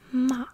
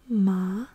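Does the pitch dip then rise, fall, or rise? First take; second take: fall; rise. First: The pitch starts high and falls. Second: The pitch rises through the syllable. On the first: "you go downwards with your voice" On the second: "you're gonna raise your pitch a little bit"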